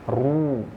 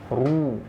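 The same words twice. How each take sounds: The two takes are said the same way.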